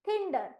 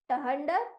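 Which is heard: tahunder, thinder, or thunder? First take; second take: thinder; tahunder. First: It starts with th and has an ih vowel. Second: It starts with t followed by an h sound. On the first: "option C" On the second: "option A"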